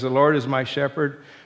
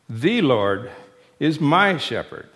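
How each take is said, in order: First: It is read plainly, without special stress. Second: The words 'The Lord' are strongly emphasized.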